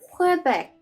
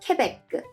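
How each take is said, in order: First: It is said with an English pronunciation. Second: It is said with a French pronunciation. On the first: "is an English pronunciation" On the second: "the French pronunciation is"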